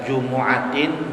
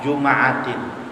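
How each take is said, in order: First: The m is followed by an u vowel. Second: The m is followed by an a vowel. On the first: "mimnya domah" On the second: "bisa mimnya fathah"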